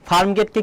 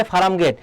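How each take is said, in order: First: ফার্ম গেটকে with "farm" as one syllable; standard pronunciation. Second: ফার্ম gate as "faram get", vowel slipped between r and m; colloquial mispronunciation. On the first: Shown as a demonstration. Teacher naming the place before its altered form, standard pronunciation. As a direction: keep r and m joined in ফার্ম গেটকে. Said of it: "উচ্চারণে পরিবর্তন". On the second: Retold or imitated. Teacher quoting how many people say it, colloquial mispronunciation. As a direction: add an extra "a" to ফার্ম gate: "fa-ram". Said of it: "অনেকে বলে না".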